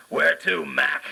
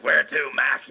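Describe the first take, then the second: First: Gruff New York cabbie, higher; tossing off a cabbie's line; cab driver. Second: Oscar the Grouch. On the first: The cab driver greets his famous passenger, gruff cabbie voice. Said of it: "And he said". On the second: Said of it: "he started talking Oscar the Grouch". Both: Retold or imitated.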